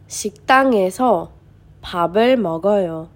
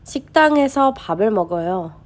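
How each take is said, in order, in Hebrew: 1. המשפט נקרא לאט יותר. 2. המשפט נקרא מהר יותר.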